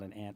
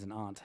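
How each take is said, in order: First: Aunt sounds like the insect ant. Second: Aunt has a broad New England ah vowel.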